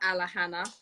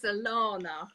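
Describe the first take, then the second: First: The name is said with an h sound. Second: The name is said without an h sound. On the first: The speaker calls it wrong. "unknowingly we've been mispronouncing her name. So it's not Alahana" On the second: The speaker calls it right. "it's Alana"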